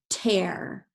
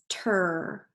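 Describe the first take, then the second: First: The vowel sounds like air. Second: The vowel sounds like er. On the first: The speaker calls it right. "let's use it with air" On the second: The speaker calls it wrong. "let's start it with er"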